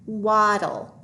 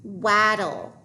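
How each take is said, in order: First: "Waddle" with an ah vowel; corrected vowel sound. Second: "Waddle" with the A of cat; short-A mispronunciation. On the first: Teacher trying a different vowel, corrected pronunciation. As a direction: say "Waddle" to rhyme with model. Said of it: "try a different vowel sound". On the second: Teacher testing a short vowel sound, mispronounced. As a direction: say "Waddle" to rhyme with paddle. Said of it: "The A should say ah". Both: Shown as a demonstration.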